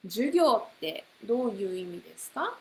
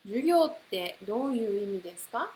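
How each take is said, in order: First: 授業ってどういう意味ですか said quickly; fast model question. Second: 授業ってどういう意味ですか rushed very fast; very fast model question. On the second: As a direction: fire it off at top speed. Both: Shown as a demonstration. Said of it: "you can put any word".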